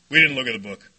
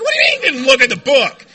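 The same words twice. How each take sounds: First: Put-on low, matter-of-fact old-timer answer; low-key sponsor. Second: Loud, disbelieving echo; incredulous outburst. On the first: Sponsor answers the questioning newcomer, low and matter-of-fact. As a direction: answer much lower, as if it's obvious. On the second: Retold or imitated. Sponsee questions his sponsor's answer, loudly incredulous. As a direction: shout it back in mock disbelief. Acts own shocked reply to sponsor.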